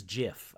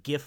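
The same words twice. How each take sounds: First: Gif said like jiff, with a soft g. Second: Gif with a hard g as in gift. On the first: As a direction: start gif with a j sound. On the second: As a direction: start gif like the word give. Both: Shown as a demonstration. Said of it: "Star Wars version of gif versus gif".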